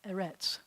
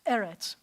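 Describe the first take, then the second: First: The stress is on the last syllable. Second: The stress is on the first syllable. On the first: The speaker calls it wrong. "It's not eretz" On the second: The speaker calls it right. "the accent's going to shift to the first eh. So it's eretz"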